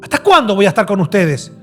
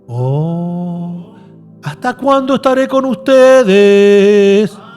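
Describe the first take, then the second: First: It is said in an angry, reproachful tone. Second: It is said in a soft, gentle tone.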